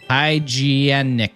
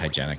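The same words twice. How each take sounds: First: The word is pronounced in an odd, distorted way. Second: The word is pronounced in the usual way.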